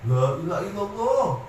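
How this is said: It is said in a pushy, forcing way. The dying person is being pressured. The speaker calls it wrong. "Jangan kayak orang maksa"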